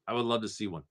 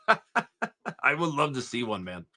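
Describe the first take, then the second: First: Said in the usual way. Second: Laughing through the line, slowed; amused chuckle while talking. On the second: Real, not acted. Laughing at a chat message.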